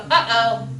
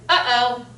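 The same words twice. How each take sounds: First: "Uh-oh" with a catch in the throat between the two parts; glottal stop. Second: "Uh-oh" broken by a clear throat catch; glottal stop. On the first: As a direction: stop the air in the throat midway through "Uh-oh". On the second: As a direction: let the throat cut the air in the middle of "Uh-oh". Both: Shown as a demonstration. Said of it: "a little vibration down in there".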